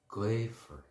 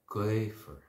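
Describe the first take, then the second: Both takes have the same delivery.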